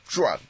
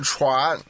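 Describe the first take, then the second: First: The word begins with a zh sound. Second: The word begins with a ch sound. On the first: The speaker calls it wrong. "不是念转" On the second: The speaker calls it right. "那个字念传"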